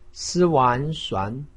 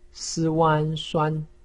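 First: The pitch rises from mid to high. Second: The pitch stays high and level. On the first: "二声" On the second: "一声"

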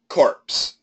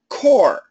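First: The word ends with a clear 'ps' sound. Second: The word ends with an 'r' sound only. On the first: It refers to a dead body. The speaker calls it wrong. "Barack Obama pronounces the word as corpse, which is absolutely incorrect" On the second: It refers to a professional group. The speaker calls it right. "C-O-R-P-S is pronounced core. The P and the S are silent"

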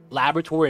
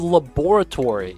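First: It is said the American way, like lavatory. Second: It is said the longer British way. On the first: "Laboratory in America, we pronounce it similar to lavatory" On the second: "So laboratory is the British version"

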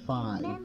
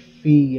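First: The vowel sounds like the one in 'eye'. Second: The vowel sounds like the one in 'see'. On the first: The speaker calls it wrong. "and not Fi" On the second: The speaker calls it right. "I think it should be Fee"

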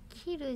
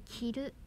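First: The pitch is higher on the first syllable. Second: The pitch is higher on the second syllable. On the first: It means to cut. "切るじゃなくて" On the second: It means to wear. "ルーが上"

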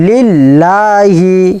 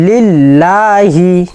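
Both takes have the same delivery.

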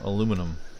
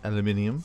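First: The word is said the American way. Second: The word is said the British way.

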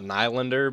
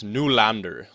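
First: The name has an anglicized pronunciation. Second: The name has a Swedish-style pronunciation. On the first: The speaker calls it wrong. "It's not Nylander because, yeah, that's just wrong" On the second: The speaker calls it right. "like the Swedish pronunciation"

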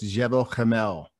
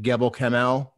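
First: The first word begins with a soft J sound. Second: The first word begins with a hard G sound. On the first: The speaker calls it right. "Pronounced correctly, it's Jebel Kamel" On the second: The speaker calls it wrong. "Everyone calls it Gebel Kamel"

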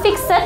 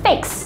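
First: A vowel is sounded before the final d. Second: No vowel is sounded before the final d. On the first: The speaker calls it wrong. "Jadi bukan fixed. No" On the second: The speaker calls it right. "tapi fixed. ... Jadi langsung fixed. Langsung ke D-nya"

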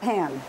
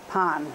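First: The word is said with an English pronunciation. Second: The word is said with a Spanish pronunciation. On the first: The speaker calls it wrong. "not pan" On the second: The speaker calls it right. "Got to say it authentically"

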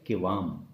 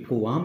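First: The first vowel is an 'i' sound. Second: The first vowel is a 'u' sound. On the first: The speaker calls it right. "ये लफ्ज़ है किवाम" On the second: The speaker calls it wrong. "ये कुवाम नहीं"

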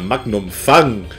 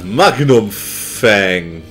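First: The name is pronounced the German way. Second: The name is pronounced the English way.

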